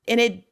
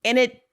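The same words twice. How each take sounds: The two takes are said the same way.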